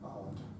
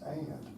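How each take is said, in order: First: The vowel is a rounded 'o' sound, like 'on'. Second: The vowel is a Southern American 'a' sound. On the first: This is the way the choir is told to sing it. "Our choir director insists that we sing it on" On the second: This is the everyday regional way. "most Americans, certainly the American South, are inclined to pronounce it"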